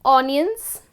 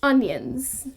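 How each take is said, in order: First: Onions with an open aw, AWN-yuns; wrong onions. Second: Onions with a short uh, UN-yuns; correct onions. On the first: Teacher contrasting the wrong vowel, open aw. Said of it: "So it's not". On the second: Teacher giving the right vowel after the wrong one, short uh. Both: Shown as a demonstration.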